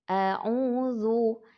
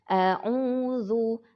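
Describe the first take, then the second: Both takes have the same delivery.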